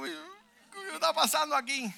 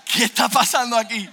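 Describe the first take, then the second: First: High, slow, mock-weeping wail; thin, drawn-out crying imitation; tearful. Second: High, loud exclamation; loud reenacted amazement; astonished outburst. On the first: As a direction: imitate a woman crying in bewilderment. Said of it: "Y la señora llorando". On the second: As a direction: blurt it out in amazed bewilderment. Acts stunned reaction, second time.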